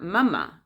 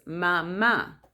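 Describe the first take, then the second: First: "mama" with stress on the first syllable; English-style "mama", last A left unstressed; English pronunciation. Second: "mama" slow, with the last A stressed; Spanish stress. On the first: Showing what Spanish is not, "mama" stressed up front. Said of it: "Or it's not mama". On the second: Showing how Spanish says mom, "mama" stressed on the last A. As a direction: stretch and stress the final A of "mama". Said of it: "the little accent in the last A". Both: Shown as a demonstration.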